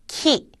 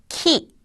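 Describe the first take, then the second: First: The k has a strong puff of air. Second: The k has a strong puff of air.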